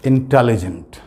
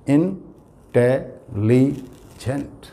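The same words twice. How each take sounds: First: Said in the usual way. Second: intelligent drawn out very slowly, four syllables apart; slow teacher's intelligent, syllables pulled apart. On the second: Shown as a demonstration. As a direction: stretch intelligent so each syllable is counted. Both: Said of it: "चार syllable हैं".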